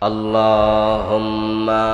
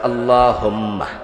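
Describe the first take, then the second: First: The final 'ma' syllable is drawn out. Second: The final 'ma' syllable is kept short. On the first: The speaker calls it wrong. "মিমে টান ফাইলেন কই?" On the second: The speaker calls it right. "মিমে তো টান ছিল না।"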